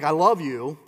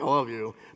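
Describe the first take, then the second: First: It is said warmly, really meaning it. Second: It is said dismissively, without meaning.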